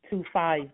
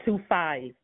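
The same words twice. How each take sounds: The two takes are said the same way.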